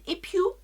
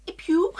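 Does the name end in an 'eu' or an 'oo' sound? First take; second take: oo; oo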